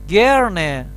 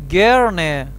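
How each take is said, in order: No difference in how they are said.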